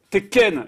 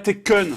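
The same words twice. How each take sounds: First: The second syllable sounds like the name Ken. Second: The second syllable does not sound like Ken. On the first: The speaker calls it right. "C'était Ken" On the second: The speaker calls it wrong. "et pas Tekken"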